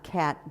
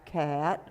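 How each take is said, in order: First: The vowel is spread wide and flat. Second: The vowel is shaped tall and vertical. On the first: The speaker calls it wrong. "it's not cat this way" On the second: The speaker calls it right. "a vertical cat"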